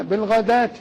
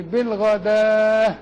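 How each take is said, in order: First: Said in the usual way. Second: "بالغداة" very slow, each syllable drawn; isolated word demo. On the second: Shown as a demonstration. Sheikh isolates the word for students, very slow. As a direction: stretch "بالغداة" out slowly. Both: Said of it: "دال وألف وهاء".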